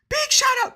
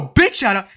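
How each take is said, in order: First: It is said in a higher-pitched, natural-sounding voice. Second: It is said in a lower-pitched, exaggerated voice. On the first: Someone else says it this way unironically. "his intonation and his pitch is higher than mine" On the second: The speaker is putting on a voice on purpose.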